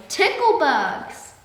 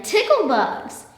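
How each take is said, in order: First: High, loud, very slow fading shout; man keeps shouting while fleeing; still shouting. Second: High, loud, slow yell; man yells about the bugs, loud and drawn out. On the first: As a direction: shout it drawn out as he runs away. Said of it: "still shouting". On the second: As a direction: bellow it out stretched. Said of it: "yelled the man". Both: A narrator's reading.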